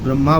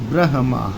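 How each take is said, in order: First: The m sound comes before the h. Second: The h sound comes before the m. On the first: The speaker calls it wrong. "लोग ब्रह्मा बोलते हैं।" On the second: The speaker calls it right. "हा जो है वो पहले है, माँ है बाद में।"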